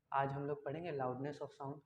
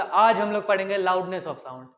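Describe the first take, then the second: First: Very quiet, low and slow; very soft. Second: Loud, slow, forceful projection; speaking loudly. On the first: Teacher showing students low loudness, speaking very softly. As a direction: drop right down to a hushed demo voice. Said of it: "जो मैंने एकदम धीरे से बोला". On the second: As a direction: belt the sentence out for the demo. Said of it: "जब मैं ज़्यादा ज़ोर से बोलूँगा". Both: Shown as a demonstration.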